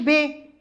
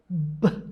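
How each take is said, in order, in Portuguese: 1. A letra é dita pelo seu nome completo. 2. A letra é dita pelo seu som puro de consoante. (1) "Se eu começar a ensinar o nome da letra" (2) "sabe como você lê? Lê B"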